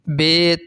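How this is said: It ends in an 'e' vowel, Urdu style. The speaker calls it wrong. "Urdu तलफ़्फ़ुज़ से परहेज़ करें। यानी बे, ... हरगिज़ ना पढ़ें"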